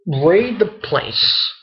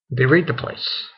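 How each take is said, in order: First: Slow, drawn-out and higher, weighting each word; dramatic emphasis. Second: Said in the usual way. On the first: Retold or imitated. Recapping an anime raid, slow dramatic emphasis. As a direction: stretch it out for drama.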